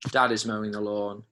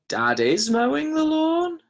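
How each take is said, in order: First: It is said flatly, falling at the end. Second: The voice rises at the end like a question. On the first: It simply states the fact. The speaker calls it right. "That's just going to be a full stop" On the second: It asks whether this is happening. The speaker calls it wrong. "Is that a question?"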